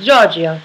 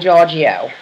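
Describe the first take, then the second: First: The name is said in an Italian accent. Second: The name is said in a plain accent.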